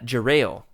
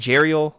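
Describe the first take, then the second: First: The name does not sound like 'Ariel'. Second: The name sounds like 'Ariel' with a J. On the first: The speaker calls it right. "John Jackson Miller has gone on the record and saying that it's" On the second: The speaker calls it wrong. "like the mermaid"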